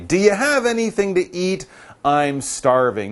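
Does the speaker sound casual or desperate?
casual. It is said in a casual, everyday tone. The speaker is just a bit hungry.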